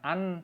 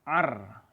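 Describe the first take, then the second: First: The n sound is pronounced clearly. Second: The n sound merges into the r. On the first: The speaker calls it wrong. "jangan an" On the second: The speaker calls it right. "tapi ar"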